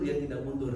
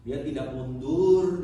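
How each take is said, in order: First: Said in the usual way. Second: Dia tidak mundur, loud and slow; loud slow declaration; emphatic refrain. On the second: Real, not acted. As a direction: punch out mundur. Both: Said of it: "repeated refrain".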